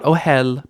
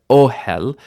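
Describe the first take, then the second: First: Ohel stressed on the last syllable; short O, then lean on HEL in ohel; wrong final stress. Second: Ohel stressed on a loud, long O; initial stress. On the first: Teacher repeating the mistake to avoid, final stress on ohel. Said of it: "not ohel". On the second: Teacher correcting the mistake, initial stress on ohel. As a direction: lean on the first syllable of ohel. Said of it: "but ohel". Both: Shown as a demonstration.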